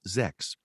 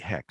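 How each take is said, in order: First: The name begins with a z sound. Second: The name begins with an h sound. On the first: The speaker calls it wrong. "which I pronounced uh, earlier in some novels Zex" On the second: The speaker calls it right. "no, it's really Hex"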